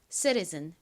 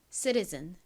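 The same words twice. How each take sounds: The two takes are said the same way.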